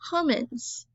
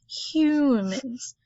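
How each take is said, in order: First: The first vowel is a short 'uh' sound. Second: The first vowel sounds like the letter U. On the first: The speaker calls it wrong. "If it was a short vowel, it would say" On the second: The speaker calls it right. "That U says its name"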